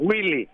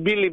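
First: The name begins with a W sound. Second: The name begins with a B sound. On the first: This is how most people said the name. The speaker calls it wrong. "τον λέγανε Willy" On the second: This is how the player says his own name. The speaker calls it right. "μου λέει Billy με λένε"

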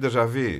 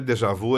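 First: The word ends with an 'ee' vowel. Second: The word ends with an 'oo' vowel. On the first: The speaker calls it right. "ενώ το σωστό είναι ντεζαβί" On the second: The speaker calls it wrong. "είπαμε ντεζαβού"

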